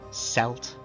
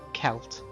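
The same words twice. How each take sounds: First: The word begins with an S sound. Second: The word begins with a K sound. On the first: "or as some others do, ... with a soft C" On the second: "How I do, ... with a hard C"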